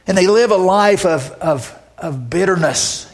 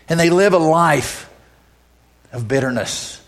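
First: Preacher hammering the point home; emphatic repeat. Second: Said in the usual way. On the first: Acted. Repeated with more force.

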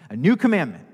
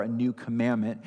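First: "new" lifted and louder, a firm fall on "commandment"; stress on new. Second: Said in the usual way. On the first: Shown as a demonstration. Pastor shows the congregation Jesus's emphasis, stressing "new". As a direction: lean into "new" as the key word. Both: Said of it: "He's putting stress on it".

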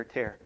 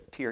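First: "tear" pronounced like tare; "tear" rhyming with air. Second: "tear" pronounced like tier; "tear" rhyming with deer. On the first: Teacher points back to the word on screen, "tear" as tare. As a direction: say "tear" with an open eh vowel. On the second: Teacher points back to the word on screen, "tear" as teer. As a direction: say "tear" with an ee vowel. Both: Shown as a demonstration. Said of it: "Tear or tear".

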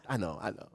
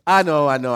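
First: Softer, falling away, as if waving off praise; quietly brushing off a compliment; mock false modesty, murmured; mock humble murmur. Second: Louder, puffed-up self-praise; hammed-up proud take; mock smug boast. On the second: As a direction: claim the credit out loud. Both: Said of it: "You know how people are like".

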